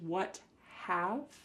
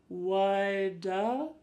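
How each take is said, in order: First: The two words are said fully and separately. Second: The two words blend into one reduced word. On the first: "This is what have" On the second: "But it sounds like woulda"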